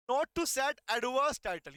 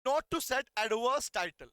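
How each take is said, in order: First: Slow, word-by-word reading of the heading; slow dictation. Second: Slow, measured repeat of the heading. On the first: Teacher showing students how to read the heading. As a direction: spell it out slowly so students can write. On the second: Teacher repeating the heading for students to write. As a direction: say it again slowly for them to copy. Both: Shown as a demonstration. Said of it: "इनको ऐसे पढ़ना है".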